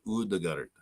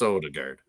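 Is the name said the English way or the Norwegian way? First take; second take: Norwegian; English. First: The name is said with Norwegian pronunciation. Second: The name is said with English pronunciation. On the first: "in Norwegian. It's a little bit like a Odegaard" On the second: "in English it's Odegaard"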